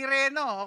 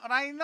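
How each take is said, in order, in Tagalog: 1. Ang unang patinig ay parang 'ee'. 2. Ang unang patinig ay parang 'eye'. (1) "Hindi Reno" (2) "Rhino ha"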